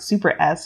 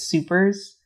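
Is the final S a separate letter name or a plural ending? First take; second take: letter; plural. First: The final S is said as a separate letter. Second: The final S is joined on as a plural ending. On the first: The speaker calls it wrong. "I always used to pronounce it super S" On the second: The speaker calls it right. "I've recently found out that it's supers"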